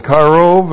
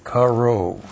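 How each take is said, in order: First: Karov said louder with a rolled r; firm teaching karov; karov stressed. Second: Karov said softly, slowly, falling at the end; soft spelled-out karov. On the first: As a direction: lean on karov firmly. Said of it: "is an adjective that means near". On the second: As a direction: sound out karov softly and carefully. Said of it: "That's Q A R long O B". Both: Shown as a demonstration.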